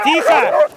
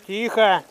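First: Sharp high shout. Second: Said in the usual way. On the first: Real, not acted. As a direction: shout to hush them. Hushing the dogs at the burrow.

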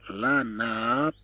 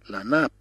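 First: "لا ناب" drawn out, final p released separately; slow pronunciation demo. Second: Said in the usual way. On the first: Shown as a demonstration. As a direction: stretch the vowels of "لا ناب" for learners. Teacher stretches word for learners. (نطق "لا ناب" ببطء مع مد الحركات)

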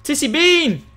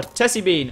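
First: "Tissy" with short i, shouted high; TISSY pronunciation, shouted. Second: "Tessie" with short e, as TESS-ee; TESSIE pronunciation. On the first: Streamer trying a viewer's name "Tissy", excited shout with short i. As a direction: call out "Tissy" as TISS-ee, loud. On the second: Streamer correcting to "Tessie", short e in first syllable. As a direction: say "Tessie" with an e as in mess. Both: Real, not acted. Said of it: "I don't know how to pronounce it".

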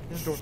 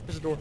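No difference in how they are said.

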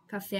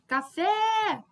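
First: Said in the usual way. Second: Café with FÉ high and held long; called out, final syllable stretched. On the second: Shown as a demonstration. Teacher gives an oxytone example, calling Café with a high, long FÉ. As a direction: call out Café, lifting and dragging the last syllable. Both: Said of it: "como se eu estivesse chamando a pessoa".

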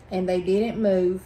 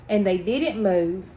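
No difference in how they are said.

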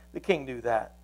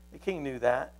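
Both takes have the same delivery.

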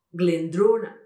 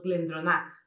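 First: GLENDRONACH as "glen-DRO-nak"; loud, long DRO in GLENDRONACH; middle-syllable stress. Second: GLENDRONACH as "glen-dro-NAK"; weight on NACH in GLENDRONACH; wrong final stress. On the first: Shown as a demonstration. Teacher corrects it, firm "glen-DRO-nak". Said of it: "Y no es así". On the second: Retold or imitated. Showing the usual error, "glen-dro-NAK". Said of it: "nosotros normalmente diríamos".

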